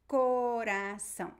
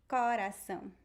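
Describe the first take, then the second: First: The first vowel is a closed O. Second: The first vowel is an open O. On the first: This is how people in the South and Southeast say it. "in the south and southeast, we would say" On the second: This is how people in the Northeast say it. "In the northeast, the most common pronunciation would be"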